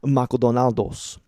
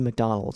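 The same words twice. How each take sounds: First: It is said with a Japanese accent. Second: It is said with an American English accent.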